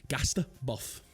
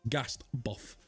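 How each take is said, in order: First: The first word ends with a 't' sound. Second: The first word ends with a 't' sound.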